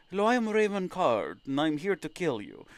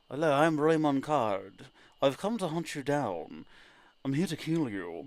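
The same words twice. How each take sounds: First: Softly menacing bounty hunter intro, lightly voiced; a hint of a filtered killer's voice; intended villain voice. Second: A menacing bounty hunter intro, lightly voiced; softer, slower hunter greeting; intended villain voice. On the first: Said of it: "Supposed to sound like that". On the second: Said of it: "Raymond Card was supposed to have a different voice". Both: Shown as a demonstration.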